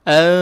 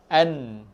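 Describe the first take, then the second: First: The tongue stays off the palate, leaving a nasal hum. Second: The tongue touches the palate for a full n. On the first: The nun is concealed (ikhfa). "jangan sebut nun tepat pada makhraj, ikhfa ... lidah tak kena" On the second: The nun is pronounced clearly at its articulation point. "sebut nun tepat pada makhraj ... hujung lidah tu dia akan kena dekat langit-langit"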